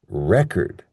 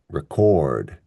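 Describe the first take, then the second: First: The stress is on the first syllable. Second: The stress is on the second syllable. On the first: It is the noun. "in the noun form, we stress the first syllable" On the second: It is the verb. "for the verb, we stress the second syllable"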